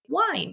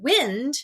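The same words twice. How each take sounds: First: The vowel is long, rhyming with 'find'. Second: The vowel is short, rhyming with 'pinned'. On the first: It means turning a clock's mechanism. The speaker calls it right. "Let me shift and flex my vowel pronunciation and say wind instead" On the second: It names moving air. The speaker calls it wrong. "but we read the word wind, then we have to stop and think that doesn't make sense"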